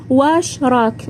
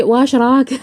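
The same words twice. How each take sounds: First: واش راك said with an Iraqi accent, heavier vowels. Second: واش راك said lightly in an Algerian accent. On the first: Iraqi accent, showing how she used to greet. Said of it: "هكذا بالعراقي". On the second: Algerian accent, showing how she greets now. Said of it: "ماشي". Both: Shown as a demonstration.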